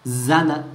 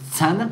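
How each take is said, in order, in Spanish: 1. La palabra empieza con un sonido z. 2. La palabra empieza con un sonido ts. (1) "con letra Zain" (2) "con Tzadi"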